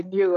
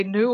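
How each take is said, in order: First: "new" said as nyoo; new with yod. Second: "new" said as noo; new without yod. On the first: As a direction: put a y-glide in "new". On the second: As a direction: drop the y-glide from "new". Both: Shown as a demonstration. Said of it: "which one do you use".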